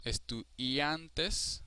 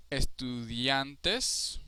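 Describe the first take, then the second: First: Estudiantes broken slowly before a stressed AN; drawn-out stressed syllable. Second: Estudiantes slowly, with a long stressed AN; stress on second-to-last. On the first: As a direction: separate the i and hold AN in estudiantes. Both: Shown as a demonstration. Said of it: "the second to last syllable is strongest".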